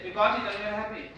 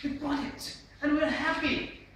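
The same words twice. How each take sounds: First: Lifeless delivery. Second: High, loud and spaced out; with expression. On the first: Trainer shows presenting without facial expression, rushed and lifeless. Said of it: "If the present is lifeless". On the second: Trainer shows the lively way to present, emphatic and happy. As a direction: proclaim the success with feeling. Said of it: "have to have the also facial expression". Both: Shown as a demonstration.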